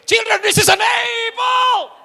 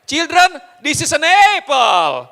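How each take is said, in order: First: It is shouted very loudly. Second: It is said a little louder.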